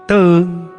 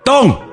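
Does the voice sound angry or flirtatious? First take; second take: flirtatious; angry. First: The name is called in a soft teasing tone. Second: The name is called out in an angry tone. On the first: The caller is teasing affectionately. "kalau nadanya Teng, Teng, sudah pasti dia godain" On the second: The caller is angry. "Yang nadanya Tong, sudah pasti dia marah"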